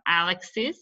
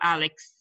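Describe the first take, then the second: First: The ending is said as a separate syllable. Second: The ending adds no separate syllable. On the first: "Whether it's a separate syllable" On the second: "or not"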